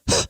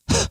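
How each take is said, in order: The two takes are said the same way.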